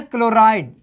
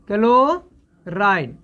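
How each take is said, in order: First: Said in the usual way. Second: chloride drawn out very slowly, क-लो-राइड with every syllable stretched; slow drilled name. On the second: Shown as a demonstration. Teacher drilling the ion name for students, very slow. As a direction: spell chloride out slowly so the class can copy it. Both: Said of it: "chloride पढ़ना है".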